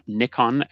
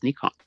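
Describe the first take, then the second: First: The name is said the Australian way. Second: The name is said the non-Australian way. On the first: The speaker calls it wrong. "not Nikon as I used to when I lived in Australia" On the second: The speaker calls it right. "I have learned that it is pronounced Nikon"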